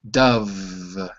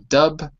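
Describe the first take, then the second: First: The word is stretched out longer. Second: The word is short and clipped. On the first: The speaker calls it right. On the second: The speaker calls it wrong.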